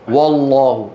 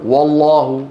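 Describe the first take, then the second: Both takes have the same delivery.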